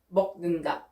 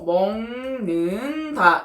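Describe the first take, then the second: First: The first syllable ends in a k sound. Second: The first syllable ends in an ng sound. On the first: The speaker calls it wrong. "기억 받침을 발음하려고 하면 어떻게 되나요? ... 너무 불편하고 너무 부자연스럽고" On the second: The speaker calls it right. "이렇게 발음이 되죠"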